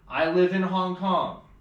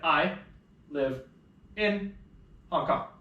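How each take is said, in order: First: The words flow together without breaks. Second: The words are chopped apart with breaks.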